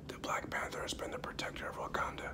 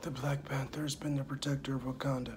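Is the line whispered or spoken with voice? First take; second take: whispered; voiced. First: It is whispered with no voice. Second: It is spoken with some voice added.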